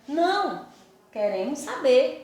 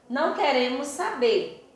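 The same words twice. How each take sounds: First: There is a pause after não. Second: It is said without a pause after não.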